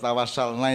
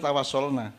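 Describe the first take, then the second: First: The second vowel sounds like 'a'. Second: The second vowel sounds like 'o'. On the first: The speaker calls it wrong. "Kalau tawasalna itu" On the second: The speaker calls it right. "mestinya tawasolna"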